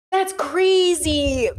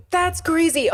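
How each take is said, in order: First: "That's" stretched very slowly in disbelief; drawn-out disbelief. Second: Said in the usual way. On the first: Real, not acted. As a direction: drag "That's crazy" out slowly.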